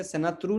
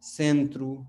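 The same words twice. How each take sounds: First: सेनात्रु with a full n, se-na-tru, as the mistake; the incorrect way, सेनात्रु with a clear na; wrong reading. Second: सेंत्रु with a nasal e and no separate n, sen-tru; the right way, nasalised सेंत्रु; correct reading. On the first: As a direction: read सेनात्रु letter by letter, sounding the n. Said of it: "नहीं पढ़ेंगे". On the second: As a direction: say सेंत्रु with the n melted into the nose. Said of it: "हम क्या पढ़ेंगे?". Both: Shown as a demonstration.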